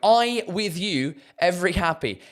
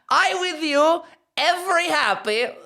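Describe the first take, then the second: First: It is said in his normal accent. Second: It is said in a Borat accent.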